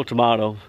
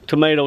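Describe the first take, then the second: First: "tomato" with an AH, tuh-MAH-toh; second pronunciation. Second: "tomato" with a long A, tuh-MAY-toh; first pronunciation. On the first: Angler shrugging off how a word is said, second pronunciation. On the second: Angler shrugging off how a word is said, first pronunciation. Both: Shown as a demonstration.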